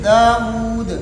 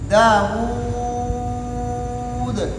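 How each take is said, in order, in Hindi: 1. अंतिम लंबे स्वर को सबसे कम देर तक खींचा जाता है। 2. अंतिम लंबे स्वर को सबसे ज़्यादा देर तक खींचा जाता है। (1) "कसर" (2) "तूल"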